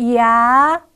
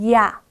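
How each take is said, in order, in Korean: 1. 모음을 천천히 길게 늘여 발음해요. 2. 모음을 빠르게 발음해요. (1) "두세 번 천천히 합성하다가" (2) "조금씩 빠르게 합성하여 소리를 냅니다"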